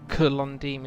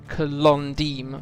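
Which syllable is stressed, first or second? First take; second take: first; second. First: The stress is on the first syllable. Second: The stress is on the second syllable. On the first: The speaker calls it wrong. "rather than Kolondim" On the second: The speaker calls it right. "emphasis on the second syllable, so it's Kolondim"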